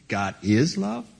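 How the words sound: The voice rises at the end, like a question.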